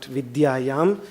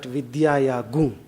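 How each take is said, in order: First: The word ends with a plain m sound. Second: The word ends with a nasal gung sound. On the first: The speaker calls it wrong. "we pronounce it as not vidyayam" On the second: The speaker calls it right. "but vidyaya gung"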